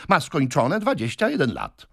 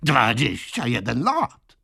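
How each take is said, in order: First: Insistent assertion. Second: Slow, higher, contemptuous echo; scornful exclamation. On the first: Suitor states the lady's age. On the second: Brother mocks his sister's claimed age, scornfully. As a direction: draw it out in scornful disbelief, rising at the end. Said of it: "zawołał pan Wardle z pogardą". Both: A narrator's reading.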